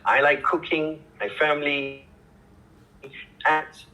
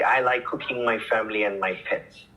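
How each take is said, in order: First: It has pauses after cooking and family. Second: It is said without pauses between items.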